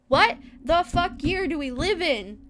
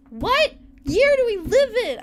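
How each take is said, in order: First: Loud, exasperated question, stress on What; exasperated outburst. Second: Much louder and higher, punching "year"; louder exasperated outburst. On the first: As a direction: fling out "What" in disbelief. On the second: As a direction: shout "year" at the sky in disbelief. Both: Real, not acted.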